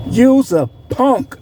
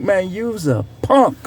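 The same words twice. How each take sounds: First: "You's a punk" said slowly, each word landed; slow emphatic repeat. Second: Said in the usual way. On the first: Real, not acted. Repeating the insult to a rival, slow and emphatic. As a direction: drag out "You's a punk" to hammer it home.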